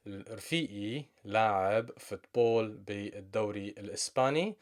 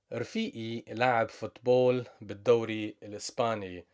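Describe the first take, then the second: First: Said in the usual way. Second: "رفيقي لعب فوتبول بالدوري الإسباني" said fast in one breath; quick read. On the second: Shown as a demonstration. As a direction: rattle it off at natural speed.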